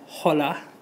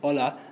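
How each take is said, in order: First: It starts with an audible h sound. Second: It starts directly with the vowel, no h. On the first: The speaker calls it wrong. "we don't say hola" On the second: The speaker calls it right. "we don't hear that H, it's just hola, as if it's silent"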